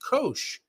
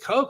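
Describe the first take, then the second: First: The name does not rhyme with coke. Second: The name rhymes with the word coke. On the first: The speaker calls it wrong. "I thought that was Koch" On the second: The speaker calls it right. "spelled like C O K E"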